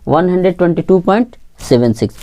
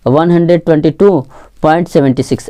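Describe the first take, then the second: First: seven six as two single digits after point; digit-by-digit reading. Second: seventy six read as one number after point; two-digit misreading. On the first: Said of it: "एक एक करके पढ़ते हैं". (पॉइंट के बाद एक-एक अंक पढ़ते हुए) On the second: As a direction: join the decimals into seventy six, like seventy-six. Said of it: "ऐसा नहीं पढ़ेंगे". (दशमलव के अंकों को छिहत्तर की तरह मिलाकर पढ़ते हुए) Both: Shown as a demonstration.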